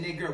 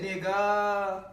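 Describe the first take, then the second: First: Said in the usual way. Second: "nigga" with a long held ah, higher; "nigga" slowed, final ah drawn out; open AH ending. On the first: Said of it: "They said nigger". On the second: Shown as a demonstration. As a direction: stretch the last vowel of "nigga" wide open. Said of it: "We said nigga".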